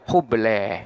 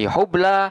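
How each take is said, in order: First: The final vowel is tilted toward an 'e' sound. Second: The final vowel is an open 'a' sound.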